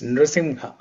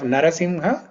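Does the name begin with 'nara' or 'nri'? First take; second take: nri; nara. First: The name begins with one syllable, nri. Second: The name begins with two full syllables, na-ra. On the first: "when you have the name in Sanskrit, it's Nrisimha" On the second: "Narasimha is also correct"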